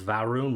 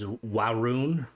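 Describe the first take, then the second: First: The name begins with a V sound. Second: The name begins with a W sound. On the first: "with a V" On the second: "like the V is a W"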